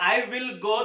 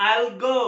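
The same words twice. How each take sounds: First: Said in the usual way. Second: I'LL merged into one syllable; stylish contraction. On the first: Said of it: "अगर मुझे बोलना है". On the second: Shown as a demonstration. Teacher shows learners the stylish version, contracted I'LL. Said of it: "style से बोल सकता हूँ".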